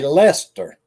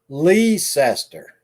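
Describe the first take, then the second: First: The name is said in the locals' shorter form. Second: The name is said in the outsiders' fuller form. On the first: This is how people from there say it. The speaker calls it right. "They just say Leicester" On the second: This is how people from elsewhere say it. The speaker calls it wrong. "some people say I'm from Leicester"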